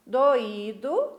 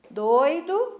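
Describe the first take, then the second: First: "doído" with stress on the í, o apart; hiatus in "doído". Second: "doido" stressed up front, oi in one syllable; diphthong in "doido". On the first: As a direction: dictate "doído" as three syllables, do-Í-do. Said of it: "a sílaba forte e o significado também". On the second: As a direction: dictate "doido" with oi glided together. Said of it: "separaram as sílabas das palavras doido e doído". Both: Shown as a demonstration.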